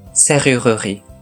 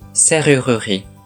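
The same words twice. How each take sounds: First: The middle u vowel is pronounced clearly. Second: The middle u vowel is pronounced clearly.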